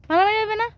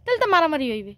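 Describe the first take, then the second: First: মারামারি stressed, pitched higher, rising question at the end. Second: Said in the usual way. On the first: Shown as a demonstration. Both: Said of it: "কও তো।".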